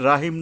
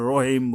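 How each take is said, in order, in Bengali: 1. 'r' হালকা ও পাতলা। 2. 'r' মোটা ও ভারী। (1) "রাহিম না বললে" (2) "আমরা রহিম বলবো"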